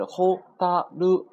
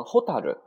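First: ホタル in three separate, held beats; kana by kana. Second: Said in the usual way. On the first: Shown as a demonstration. Teacher says it has three kana, ホタル syllable by syllable. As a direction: spell out ホ, タ, ル one at a time. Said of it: "三个假名组成". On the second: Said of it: "读成ホタル啊".

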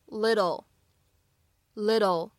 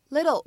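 First: "little" with a quick tapped d-like tt; slow demo of "little" with flapped T; American flap T. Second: Said in the usual way. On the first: Shown as a demonstration. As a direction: tap the middle of "little", like "liddle". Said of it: "非常典型的闪音处理". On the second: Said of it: "little这个单词".

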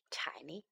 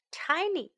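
First: "tiny" very soft and low; tiny hushed voice. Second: "Tiny" high and falling; high-pitched tiny. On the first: Teacher makes the word sound small, hushed and low. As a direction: shrink "tiny" almost to a whisper. Second take shrunk to whisper. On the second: Teacher repeats the new word for children, high and clear. First of two contrasting takes. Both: Shown as a demonstration.

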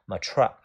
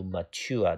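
First: Mature with a "choo-er" ending; second reading of mature. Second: Mature with a "tyoo-er" ending; first reading of mature. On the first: Teacher shows students the second reading, mature as "muh-CHOO-er". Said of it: "第二种读音读". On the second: Teacher shows students the first of two readings, mature as "muh-TYOO-er". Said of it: "这个单词的发音有两种". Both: Shown as a demonstration.

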